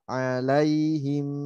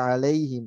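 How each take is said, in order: First: The word is said without rushing. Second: The word is said in a rush. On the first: The speaker calls it right. "Tetap alai" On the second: The speaker calls it wrong. "Jangan buru-buru di situ. Nanti jadi alaihim"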